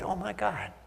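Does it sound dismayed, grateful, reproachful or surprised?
grateful. It sounds grateful and warmly thankful.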